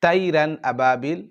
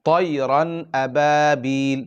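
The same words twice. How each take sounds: First: তাইরান আবাবিল with a thin তা; demonstrating the error to avoid; wrong তাইরান. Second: তৈরান আবাবিল recited slowly with a heavy ত; teacher modelling correct recitation. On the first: Retold or imitated. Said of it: "চলবে না". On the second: Shown as a demonstration. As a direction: draw out তৈরান আবাবিল with the thick ত. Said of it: "তাইরান আবাবিল চলবে না".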